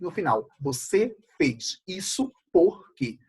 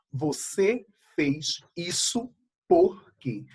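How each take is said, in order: First: "por quê" destacado no fim da frase; ênfase em por quê. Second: Said in the usual way. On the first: Shown as a demonstration. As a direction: acentue bem o "por quê" final. (pergunta com o "por quê" marcado no final) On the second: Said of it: "Percebam, gente".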